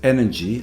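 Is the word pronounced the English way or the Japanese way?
English. It is said with English sounds and stress. "The word energy"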